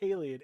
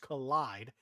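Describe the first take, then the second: First: The name does not sound like 'collide'. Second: The name sounds just like the word 'collide'. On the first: The speaker calls it wrong. "I keep calling it Kaleid" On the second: The speaker calls it right. "It's Collide"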